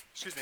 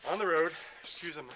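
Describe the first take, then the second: First: Said in the usual way. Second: Winded, catching breath; out of breath from running. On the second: Real, not acted. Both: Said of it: "I'm a little out of breath".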